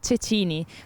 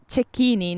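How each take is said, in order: First: The name is pronounced a non-Italian way. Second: The name is pronounced the native Italian way. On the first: The speaker calls it wrong. "not Cecchini" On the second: The speaker calls it right. "and is uh, Cecchini"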